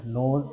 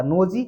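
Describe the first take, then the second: First: नोज as one syllable, lower and softer; silent final E. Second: नोजी in two syllables, NO-zee; wrong sounded E. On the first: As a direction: say नोज ending on the Z sound, no "ee". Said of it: "silent करना है". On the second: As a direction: add an "ee" to the end of nose: नोजी. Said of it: "अगर ई का निकालते तो". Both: Shown as a demonstration.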